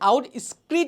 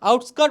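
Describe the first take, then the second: First: The second syllable sounds like skreet. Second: The second syllable sounds like skirt. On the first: The speaker calls it wrong. "অনেকে আউট স্ক্রিট উচ্চারণ করে" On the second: The speaker calls it right. "শুদ্ধ উচ্চারণ ... এটার উচ্চারণ হচ্ছে আউটস্কার্ট"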